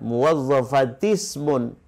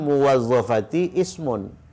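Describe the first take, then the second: First: The words run together with no separate 'i'. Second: A separate 'i' vowel starts the second word. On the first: The speaker calls it right. "Jadi kalau disambungkan" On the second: The speaker calls it wrong.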